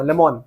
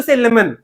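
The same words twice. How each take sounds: First: "Lemon" with a rounded "-mon" ending; "Lemon" lower, ending like "on"; friend's odd pronunciation. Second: Said in the usual way. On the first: Shown as a demonstration. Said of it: "lemon comes to my mind right now". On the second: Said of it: "I will force myself to say lemon".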